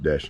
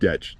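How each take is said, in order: First: The word ends with an 'sh' sound. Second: The word ends with a 'ch' sound. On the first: The speaker calls it wrong. "not Desh" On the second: The speaker calls it right. "you pronounce it Detch"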